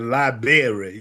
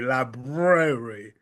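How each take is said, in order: First: The r after the b is dropped. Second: The r after the b is pronounced. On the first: The speaker calls it wrong. "it just breaks my heart for people to call it the library" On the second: The speaker calls it right. "the correct pronunciation is library, L I B R A"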